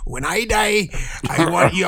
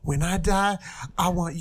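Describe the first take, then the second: First: It is said in a put-on pirate voice. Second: It is said in the speaker's normal voice. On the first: The speaker calls it right. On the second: The speaker calls it wrong.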